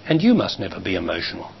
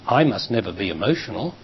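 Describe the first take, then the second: First: And you must never be emotional with you pressed a little; stress on you. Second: I must never be emotional with I leaned on slightly; stress on I. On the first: Teacher turning it to the partner, stress on you. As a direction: push the word you, keep the rest low. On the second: Teacher contrasting I with you, stress on I. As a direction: lean into I, the rest falls away. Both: Shown as a demonstration.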